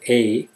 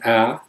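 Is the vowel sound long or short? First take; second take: long; short. First: A long vowel, as in 'cake'. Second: A short vowel, as in 'cat'. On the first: "nor a long A sound" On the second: "it's not a short A sound"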